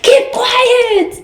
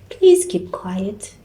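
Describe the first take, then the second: First: It is shouted loudly. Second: It is said calmly and quietly.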